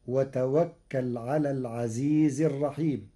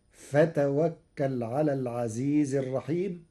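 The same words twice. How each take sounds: First: وتوكل opened with a clear "wa" sound; with waw. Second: فتوكل opened with "fa" in place of "wa"; fa for waw. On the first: Sheikh quoting the verse before Warsh's change, وتوكل with "wa". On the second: Sheikh showing Warsh's reading, فتوكل begun with "fa". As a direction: say فتوكل starting on an f sound. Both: Shown as a demonstration. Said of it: "بالفاء بدل الواو".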